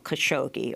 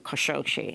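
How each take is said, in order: First: The name is said with an English pronunciation. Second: The name is said with an Arabic pronunciation.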